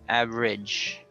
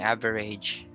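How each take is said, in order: First: The word is said with two syllables. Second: The word is said with three syllables. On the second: "Instead of saying average"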